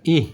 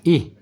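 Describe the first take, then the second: The two takes are said the same way.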